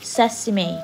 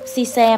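First: The word is said with three syllables. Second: The word is said with two syllables. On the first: The speaker calls it right. "เซซิเม่ก็คืองานั่นเองนะคะ" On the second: The speaker calls it wrong. "ซีแซมไม่ใช่นะคะลูก"

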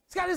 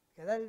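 First: It is said very fast and clipped, like racing. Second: It is said slowly and clearly, word by word. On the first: The prayer is rushed as if in a race. "מרוץ" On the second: The prayer is recited carefully. "הספרדים כולם מילה במילה"

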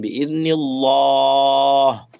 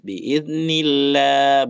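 First: The lam sound in Allah is thick and heavy. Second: The lam sound in Allah is thin and light. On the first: The speaker calls it wrong. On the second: The speaker calls it right. "di sini tipis"

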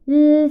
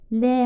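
First: Only the bare consonant sound is said. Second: The consonant is said with a vowel added. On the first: This is the sound the letter makes. "ses olarak çıkarmak istersem sadece L sesi veririm" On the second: This is the name of the letter. "harfin ismini sorduğumuzda L harfidir"

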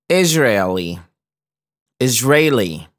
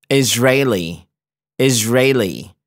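The two takes are said the same way.

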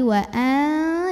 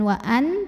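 First: The n is hidden with a light nasal hum. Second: The n is pronounced clearly and fully. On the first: The speaker calls it right. "tapi wa'a disamarin disertai dengung, tapi tidak terlalu dengung" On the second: The speaker calls it wrong. "Jadi bukan wa'an"

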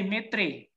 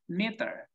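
First: The word ends with an 'ee' sound. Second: The word ends with an 'er' sound. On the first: The speaker calls it wrong. "You cannot say metri" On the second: The speaker calls it right. "That's the same pronunciation"

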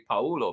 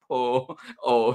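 First: The name is run together as one word. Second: The name is said as two separate parts. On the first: The speaker calls it wrong. "I want to say Paolo" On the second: The speaker calls it right. "but no, Paul O"

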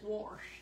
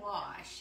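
First: The word is said with an R sound. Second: The word is said without an R sound. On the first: "He says wash" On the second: "I don't put the R in wash"

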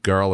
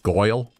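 First: The vowel is the usual 'er' sound. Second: The vowel sounds like 'oy'. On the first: "instead of girl" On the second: "it's Goyle"

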